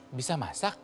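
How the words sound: It is said as a doubtful, questioning remark. It is doubtful the person can really cook. The speaker calls it right. "Nah, gitu. Karena saya sanksi dia bisa masak atau enggak"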